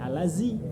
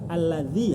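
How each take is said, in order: First: The middle consonant is a plain z sound. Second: The middle consonant is a soft th-like sound. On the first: The speaker calls it wrong. "Kalau ketemunya dengan gusi belakang jadi alazi. Itu makhraj za" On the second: The speaker calls it right. "Za itu ujung lidah ketemu gigi depan. Za, alazi harusnya"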